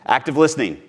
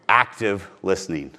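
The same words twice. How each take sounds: First: Said in the usual way. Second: Active listening said slower, stressing Active; slow it right down on the repeat; slow, deliberate coaching repeat; slow emphatic repeat. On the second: Shown as a demonstration. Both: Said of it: "Not pretending to listen".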